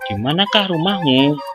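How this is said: The pitch rises at the end of the sentence. It is heard as a real question. The speaker calls it right. "ditandai dengan intonasi yang naik pada akhir kalimat"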